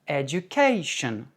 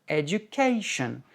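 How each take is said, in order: Both takes have the same delivery.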